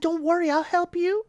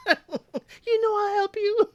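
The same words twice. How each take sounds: First: Higher mock mother voice; lightly voiced eager mama; imitating Mama. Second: Very high, slow mock mother voice; hammed-up Mama. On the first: Mama promising Bada help with grandkids, higher mock voice. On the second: Mama insisting to Bada, high slow hammed-up voice. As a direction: stretch it out high like a doting mama. Host repeats Mama's line.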